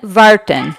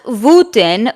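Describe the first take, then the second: First: The word begins with a V sound. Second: The word begins with a W sound. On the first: The speaker calls it right. "it's pronounced more like var- Vartan" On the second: The speaker calls it wrong. "not Wuten"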